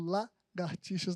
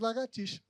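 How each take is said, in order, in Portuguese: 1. O som do R fica na primeira sílaba. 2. O som do R fica na segunda sílaba.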